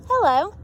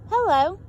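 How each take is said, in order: Both takes have the same delivery.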